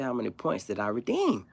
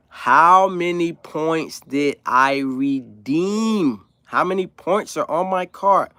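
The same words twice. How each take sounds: First: Said in the usual way. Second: Very slow, louder, every word drawn out; over-slow enunciation. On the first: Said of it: "Now I'm talking like". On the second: Retold or imitated. To the cashier, exaggerated slow mock enunciation. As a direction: talk like she can't understand a word. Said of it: "Now I'm talking like, it's like sign language".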